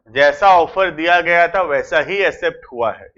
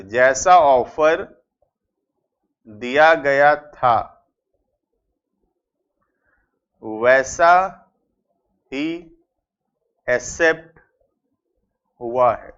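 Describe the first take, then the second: First: Said in the usual way. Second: Slow, word-by-word dictation with long pauses; dictating each word with a pause. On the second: Shown as a demonstration. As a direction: spell it out slowly so students can write. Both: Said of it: "ध्यान से".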